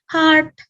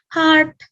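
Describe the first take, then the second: First: It is said as one English syllable. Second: The same.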